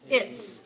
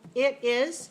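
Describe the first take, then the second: First: It is contracted into a single syllable. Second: It is said as two separate syllables.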